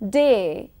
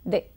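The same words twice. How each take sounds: First: The vowel glides as a diphthong. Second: The vowel is a single steady monophthong.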